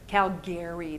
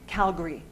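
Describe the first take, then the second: First: All three syllables are pronounced fully and separately. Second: The ending is squeezed into one syllable, gree. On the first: An outsider says it. "People from out of town say Calgary" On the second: A local person says it. "natives say Gree, Calgary"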